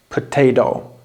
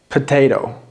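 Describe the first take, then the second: No difference in how they are said.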